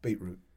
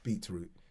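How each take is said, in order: First: The word is said in a casual everyday way. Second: The word is said slowly with careful focus. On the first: The speaker calls it wrong. "Because I don't say it right" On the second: The speaker calls it right. "I know I have to really focus on it"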